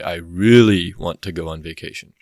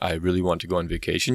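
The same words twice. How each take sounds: First: The word 'really' is strongly stressed. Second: The word 'really' carries no special stress. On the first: "So that really, you could put the E M around it to show that it was emphasized" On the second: "instead of saying"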